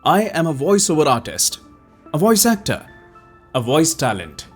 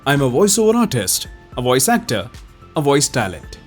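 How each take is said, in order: First: It is read at a somewhat slow pace. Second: It is read at a normal, medium pace. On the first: "अब एक थोड़ा slow pace में बोलते हैं।" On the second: "इसको पहले थोड़ा सा नॉर्मल पेस में पढ़ते हैं।"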